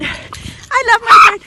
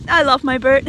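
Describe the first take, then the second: First: Loud, high, slow gush; gushing affection. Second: Said in the usual way. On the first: Real, not acted. Owner gushing about beloved parrot, gushing affection. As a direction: gush slowly over your pet. Gushing repeat of same words.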